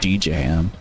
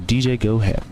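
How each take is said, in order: First: The name is said as one syllable, Ham. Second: The name is said as two syllables, Gohab. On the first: The speaker calls it wrong. "I've been saying it like that for months now" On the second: The speaker calls it right. "that makes a lot more sense"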